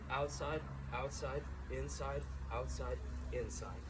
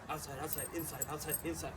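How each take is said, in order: First: The words are said slowly and smoothly. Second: The words are said quickly and hurriedly. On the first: The move is being internalized step by step. The speaker calls it right. "It's slow, smooth" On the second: The move is rushed at game speed. The speaker calls it wrong. "they try and go way too fast"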